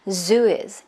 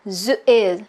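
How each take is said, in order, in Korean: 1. 두 단어가 한 단어처럼 자연스럽게 이어져요. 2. 두 단어가 따로 끊어져서 뚝뚝 들려요. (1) "이렇게 자연스럽게 연결하시더라고요" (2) "여전히 이렇게 끊어 끊어 choppy choppy"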